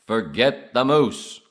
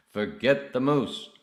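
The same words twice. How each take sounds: First: Very loud, slow, higher character voice; acted movie line. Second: Loud, higher, drawn-out character voice; acted movie reply. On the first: Repeating Arthur's moose line, loud drawn-out acted voice. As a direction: boom it out slowly in character. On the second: Playing Arthur waving off the moose, slow loud acted voice. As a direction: dismiss it slowly and loudly in character.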